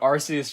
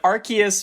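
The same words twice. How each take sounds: First: It begins with 'ar-see', a soft S sound. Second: It begins with 'ark', a hard K sound. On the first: "just sounds a whole lot better" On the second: "makes more sense because it's got a big arc on its back"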